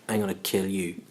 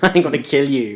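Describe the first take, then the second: First: It is said in a hostile, menacing tone. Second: It is said in a light, joking tone. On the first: It reads as a real threat. "to somebody else, that could be like" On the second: It is a friendly joke between friends. "you know I'm saying I'm going to kill you, right?"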